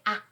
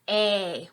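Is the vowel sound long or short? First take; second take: short; long. First: A short open vowel, like ah. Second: A long vowel that says its name. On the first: "There's a short A" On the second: "and a long A"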